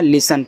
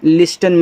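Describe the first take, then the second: First: No t sound is pronounced after the s. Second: A t sound is pronounced after the s. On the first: The speaker calls it right. "लिसन पढ़ना" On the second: The speaker calls it wrong. "लिस्टन मत पढ़ना"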